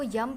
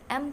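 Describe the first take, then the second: First: It begins with a y glide before the vowel. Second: It begins directly with the vowel sound.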